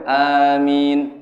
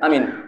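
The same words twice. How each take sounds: First: The first vowel and the m are both lengthened. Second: The first vowel and the m are both short. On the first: The speaker calls it right. "hanya dua, minnya dua" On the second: The speaker calls it wrong. "hanya pendek, minnya pendek"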